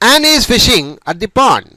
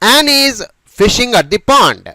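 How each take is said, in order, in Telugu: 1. ఇది సాధారణ సంభాషణలాగా వేగంగా పలుకుతారు. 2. ఇది నెమ్మదిగా, జాగ్రత్తగా పలుకుతారు.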